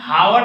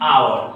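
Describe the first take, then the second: First: The word begins with an h sound. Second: The word begins with a vowel sound. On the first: The speaker calls it wrong. "हावर नहीं" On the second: The speaker calls it right. "नहीं आवर"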